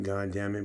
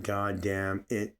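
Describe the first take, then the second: First: Said in the usual way. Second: "God damn it" spelled out slowly, every word weighted; slow each word down so "God damn it" is heard as a real curse on God; slow and deliberate. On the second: Shown as a demonstration. Showing viewers what the curse truly means, slow and deliberate. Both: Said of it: "but it's more like".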